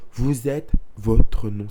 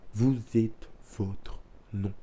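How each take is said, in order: First: Vous êtes votre non, said slowly and louder, each word stamped down; the motto again, now loud and unyielding; firm slow motto. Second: Vous êtes votre non, said slowly and softly, every word drawn out; a quiet, deliberate first take of the motto. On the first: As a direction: hammer the motto home. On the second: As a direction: hush it down and let the words sink in. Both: Real, not acted.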